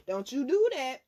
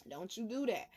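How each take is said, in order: First: Louder, firm warning on do; stern loud caution to the listeners. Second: Hushed second warning; quiet repeat. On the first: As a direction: warn them sharply. Warning the audience, said twice. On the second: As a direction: let it drop, quieter. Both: Real, not acted.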